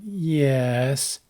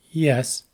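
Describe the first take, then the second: First: "yes" drawn out long; long, lingering "yes"; lengthened. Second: Said in the usual way. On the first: Shown as a demonstration. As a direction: stretch the vowel of "yes". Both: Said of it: "pronounced with different duration".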